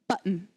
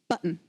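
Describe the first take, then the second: First: The T in the middle is silent. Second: The T in the middle is silent.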